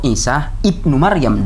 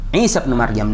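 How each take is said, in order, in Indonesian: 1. Berhenti setelah Isa, lalu membaca 'ibnu' penuh. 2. Lanjut tanpa berhenti, membaca 'bin' pendek. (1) "Kalau ini mau diwakaf" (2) "kalau mau diwasal"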